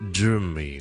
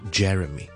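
First: The first vowel is not a short 'eh' sound. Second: The first vowel is a short 'eh' sound. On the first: The speaker calls it wrong. "就不要读成好像Jeremy" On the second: The speaker calls it right. "正确英式英文读音是Jeremy"

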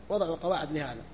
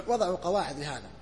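The two takes are said the same way.

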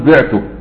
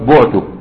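First: The first vowel is an i sound. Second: The first vowel is a u sound. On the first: The speaker sold something. "في المعلوم قل بعته بالكسر" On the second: The speaker was sold. "وفي المجهول قل بعته"

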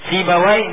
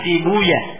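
First: The name ends with a 'wai' sound. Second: The name ends with a 'ya' sound. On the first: This is the original form of the name. "setiap nama yang diakhiri dengan wai" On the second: This is the form the hadith scholars changed it to. "mereka katakan si buya"

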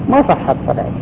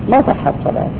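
Both takes have the same delivery.

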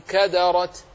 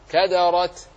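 The two takes are said the same way.

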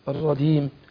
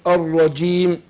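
First: The j sound drifts toward a d sound. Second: The j sound is clear, without a d. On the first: The speaker calls it wrong. "راح على الدال الرجيم" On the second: The speaker calls it right. "اقول الرجيم جي جي جي"

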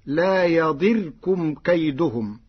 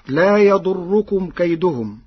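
First: The vowel after the 'd' sound is 'i'. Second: The vowel after the 'd' sound is 'u'.

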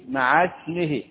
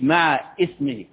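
First: The words link with no glottal stop before ismihi. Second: A glottal stop is heard before ismihi. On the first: The speaker calls it right. "يبقى مع اسمه" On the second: The speaker calls it wrong. "مش مع اسمه"

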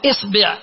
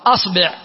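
First: The first vowel is i. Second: The first vowel is a.

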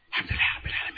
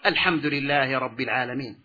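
First: It is recited quickly and hurriedly. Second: It is recited slowly and calmly. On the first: The reciter lacks humility and reverence. The speaker calls it wrong. "الأصوات التي يحدثها المسرع في قراءته" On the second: The reciter shows humility and reverence. The speaker calls it right. "فتقرأ بخشوع وتمهل"

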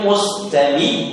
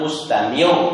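First: The final r sounds thin with spread, smiling lips. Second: The final r sounds rounded with protruding lips. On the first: The speaker calls it right. "Tapi kalau mustami itu mesti senyum akhirnya" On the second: The speaker calls it wrong. "Tapi kalau mustamiu, jadi montong punya"

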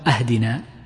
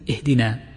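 First: The word begins with an 'a' vowel. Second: The word begins with an 'i' vowel. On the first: A request for a gift. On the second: A request for guidance.

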